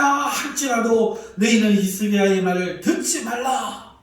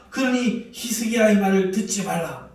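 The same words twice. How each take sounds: First: Higher and louder, with the stress on 듣지; loud warning. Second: Louder, with a laugh, the stress on 그러니; laughing warning. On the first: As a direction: shout 듣지 hard at the end of the warning. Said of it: "이렇게 큰 소리로 말합니다". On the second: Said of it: "큰 소리로 말합니다". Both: Acted.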